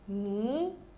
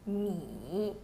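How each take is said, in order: First: The pitch rises from middle to high. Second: The pitch dips low, then rises.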